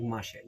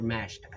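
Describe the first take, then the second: First: "Mashed" said in two syllables, like "mash-ed". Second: "Mashed" as one syllable, rhyming with "crashed"; corrected pronunciation. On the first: Vlogger naming a film his childhood way, two-syllable "Mashed". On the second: Vlogger correcting the film's name, one-syllable "Mashed". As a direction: say "Mashed" in a single syllable, MASHT. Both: Real, not acted. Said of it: "Mashed as Mashed 'cause that's how I said it".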